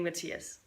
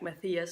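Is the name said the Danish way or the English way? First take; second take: Danish; English. First: The name is said the common Danish way. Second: The name is said like English Matthew. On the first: "this is how we would pronounce it" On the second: "like Matthew or something"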